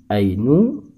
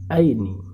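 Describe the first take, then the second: First: The word ends with the vowel u. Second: The word ends with the vowel i. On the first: "tidak boleh dibaca ainu" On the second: "tidak boleh dibaca aini"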